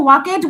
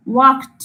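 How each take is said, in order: First: ওয়াকেড said with an extra vowel before the d; ওয়াকেড stretched to two syllables; ওয়াকেড ending in e-d; wrong pronunciation. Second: ওয়াকড said as one syllable, no extra vowel before the d; ওয়াকড with the ending clipped to a t sound; ওয়াকড ending straight on a t sound; correct pronunciation. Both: Shown as a demonstration. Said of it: "আমরা কিন্তু ওয়াকেড বলছি না".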